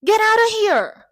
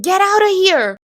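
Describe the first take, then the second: First: High, drawn-out imitated shout; shadowing the character. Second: High, loud dramatic shout; imitated character's outburst. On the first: Speaking along with the scene's character, drawn-out mimicked shout. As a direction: echo the TV outburst, loud and slower. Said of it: "Eu falava junto". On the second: Character in the replayed scene, acted angry shout. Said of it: "a pessoa falava assim".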